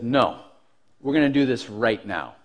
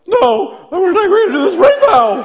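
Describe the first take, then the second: First: Low, soft, controlled challenge; composed defiance. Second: Very high, loud mock squeal; hammed-up panicky squeak of a scared kid; terrified squeal. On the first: Retold or imitated. Kid standing up to the bully, composed defiance. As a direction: stand your ground in a low, even voice. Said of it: "In reality, I'm sure it sounded like". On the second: Kid challenging the bully as it really sounded, panicked squeal. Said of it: "I'm sure it sounded like".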